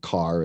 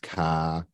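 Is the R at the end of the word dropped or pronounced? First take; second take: pronounced; dropped. First: The final R sound is pronounced. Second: The R is dropped, ending in an ah. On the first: "instead of car" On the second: "where you replace a R with an AH"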